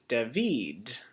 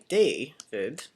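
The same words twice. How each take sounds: First: The stress is on the second syllable. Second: The stress is on the first syllable. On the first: "the stressed syllable is this uh, vid part" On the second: "where the emphasis is above the A"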